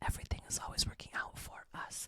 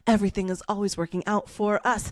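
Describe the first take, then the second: First: It is said quietly and softly. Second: It is said at a medium volume.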